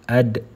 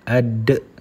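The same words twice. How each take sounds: First: The final d bounces with a moderate echo. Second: The final d bounces with an exaggerated echo. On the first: The speaker calls it right. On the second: The speaker calls it wrong.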